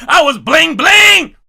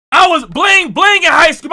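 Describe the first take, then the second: First: Big slow shout. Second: Said in the usual way. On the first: Shown as a demonstration.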